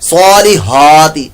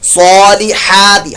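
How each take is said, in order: First: The h is a soft, breathy sound. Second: The h is a harsh sound from the throat. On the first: The speaker calls it wrong. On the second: The speaker calls it right.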